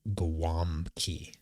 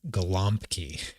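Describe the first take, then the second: First: The middle consonant sounds like a W. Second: The middle consonant sounds like an L. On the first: The speaker calls it right. "it's pronounced in words as a W" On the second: The speaker calls it wrong. "when you write it out, it looks like it"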